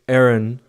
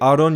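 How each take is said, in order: First: The name is said with an American English pronunciation. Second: The name is said with a non-American pronunciation. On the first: "in American English, you'd say" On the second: "You say it like that"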